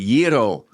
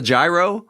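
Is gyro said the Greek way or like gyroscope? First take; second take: Greek way; like gyroscope. First: It is said with a Greek pronunciation. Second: It starts like the word gyroscope. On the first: "if you want to say it in the Greek way" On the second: "that gyro is a gyroscope"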